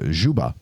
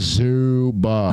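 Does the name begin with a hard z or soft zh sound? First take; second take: soft zh; hard z. First: The name begins with a soft zh sound. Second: The name begins with a hard z sound. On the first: This is how people abroad say it. "kind of like au jus, that jus sound at the end" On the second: This is how people in the United States say it. "as soon as you land in the United States, they're like"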